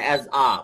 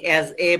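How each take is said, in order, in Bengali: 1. আর্টিকেলটি হালকা 'uh' ধ্বনি দিয়ে বলা হয়। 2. আর্টিকেলটি পুরো 'ay' ধ্বনি দিয়ে বলা হয়। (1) "যখন সেন্টেন্সের মাঝখানে যখন এ আসে তখন ওটা উচ্চারণ কিন্তু এ হবে না" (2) "অ্যাজ এ বলবেন না"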